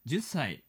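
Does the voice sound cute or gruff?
gruff. It is said in a gruff, middle-aged man's manner. The speaker calls it wrong. "おっさん臭い言い方して"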